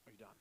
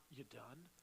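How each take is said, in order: First: Soft, patient "Are you done?" with every word said fully; patient gentle tone. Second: Short, dismissive "You done?" clipped into two quick words; curt impatient tone. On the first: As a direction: ask "Are you done?" kindly, really giving them room. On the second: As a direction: snap "You done?" like you can't wait to cut in. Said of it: "and watch your tone, it's not". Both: Shown as a demonstration.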